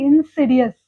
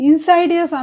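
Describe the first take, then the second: First: The second vowel sounds like 'ih'. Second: The second vowel sounds like 'eye'. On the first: The speaker calls it right. "దీని pronunciation ఏంటంటే ఇన్సిడియస్" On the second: The speaker calls it wrong.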